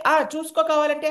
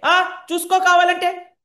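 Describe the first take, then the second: First: Put-on cocky child. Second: High, loud and slow, as if mouth full; a boy hiding mud, loud so mother believes; loud bluff. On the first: Child bluffs about homework. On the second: Acted. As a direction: bluff it out loudly so she believes. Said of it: "ఇలా గట్టిగా మాట్లాడితేనే".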